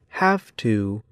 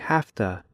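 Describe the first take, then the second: First: Both words are said slowly and fully. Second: The words are said quickly and run together. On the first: "In slow speech" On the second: "in fast speech"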